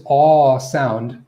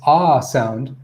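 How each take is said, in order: First: Aw stretched long in "aw sound"; open, rounded aw, held; tongue-back AW. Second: Ah stretched long in "ah sound"; relaxed-tongue AH. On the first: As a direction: lean on a pulled-back aw. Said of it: "the tongue is being pulled back". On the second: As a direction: lean on an unrounded ah. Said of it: "your tongue's relaxed". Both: Shown as a demonstration.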